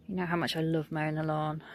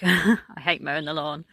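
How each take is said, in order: First: Sarcastic. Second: Said in the usual way. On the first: Real, not acted. Gardener to viewers about mowing, sarcastic. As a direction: say it as if you mean the opposite. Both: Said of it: "I'm being sarcastic".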